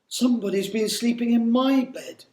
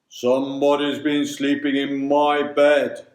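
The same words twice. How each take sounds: First: It is said in the middle bear's gentle voice. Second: It is said in the big bear's deep voice.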